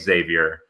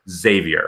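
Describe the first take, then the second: First: The name begins with an 'eks' sound. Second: The name begins with a 'z' sound. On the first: The speaker calls it wrong. "make sure that we're not calling it Xavier" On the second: The speaker calls it right. "It is just Xavier"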